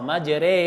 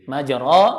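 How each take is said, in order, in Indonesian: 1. Vokal setelah r condong ke e. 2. Vokal setelah r adalah a terbuka biasa. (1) "dia dimiringkan seperti antara fathah dan kasrah" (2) "Tulisannya majro"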